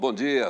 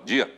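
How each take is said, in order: First: A full, warm, energetic greeting. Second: A clipped, flat, perfunctory greeting. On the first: The greeting is sincere and friendly. The speaker calls it right. "Você tem que olhar nos olhos da pessoa e falar" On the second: The greeting is a mere formality. The speaker calls it wrong. "não aquele bom dia protocolar"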